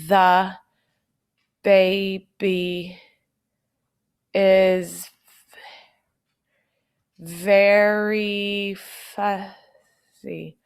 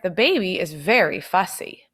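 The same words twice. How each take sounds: First: It is read flat and robotic, word by word. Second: It is read smoothly with lively expression. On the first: The speaker calls it wrong. "I don't want you to sound like a robot" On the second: The speaker calls it right. "Use some expression and get those words together"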